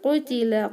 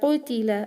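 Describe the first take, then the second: Both takes have the same delivery.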